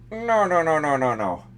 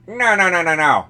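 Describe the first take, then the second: First: It is said in a Peter Griffin voice. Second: It is said in an Inspector Gadget voice.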